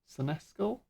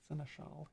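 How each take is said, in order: First: The middle consonant is pronounced as 'sk'. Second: The middle consonant is pronounced as 'sh'. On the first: The speaker calls it wrong. "It just doesn't sound right in my head" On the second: The speaker calls it right. "so I like seneschal instead"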